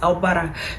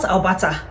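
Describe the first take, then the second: First: It is said with a soft r-like middle sound. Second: It is said with a clear Nigerian-style t sound. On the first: The speaker calls it right. "it is Albara" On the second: The speaker calls it wrong.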